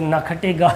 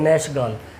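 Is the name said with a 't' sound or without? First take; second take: with t; without t. First: The name is read with a 'kh-t' sound. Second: The name is said with an 'sh' sound. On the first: This is how it looks written. The speaker calls it wrong. "ये नखटे गाल लिखा" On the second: This is how it should be pronounced. The speaker calls it right. "नैशगाल इसको प्रोनाउंस करिएगा"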